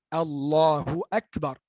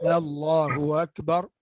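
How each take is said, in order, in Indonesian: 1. Hamzah diucapkan penuh dan jelas. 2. Hamzah dilunakkan menuju vokal. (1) "Tahqiq betulkan bunyi hamzah" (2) "Itu bacaan tashil"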